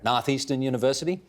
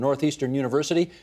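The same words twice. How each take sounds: First: It is said imitating the local regional accent. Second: It is said in the speaker's ordinary accent.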